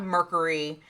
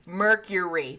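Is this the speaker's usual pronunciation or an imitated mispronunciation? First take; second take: imitated; usual. First: The word is said with an imitated mispronunciation. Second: The word is said the standard way. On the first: This is how someone else kept saying it. The speaker calls it wrong. "It's not mercury" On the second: This is how the word should be said. The speaker calls it right. "That's how you fucking say it"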